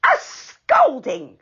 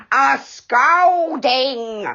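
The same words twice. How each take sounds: First: Indignant echo. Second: Slow, loud roar of the word scolding; angry pixie roaring the threat. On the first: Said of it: "said Dame Washalot's voice". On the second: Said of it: "roared the angry pixie". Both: A narrator's reading.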